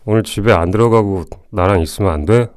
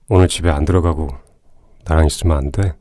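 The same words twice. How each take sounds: First: The voice is higher and not deep. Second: The voice is low and deep.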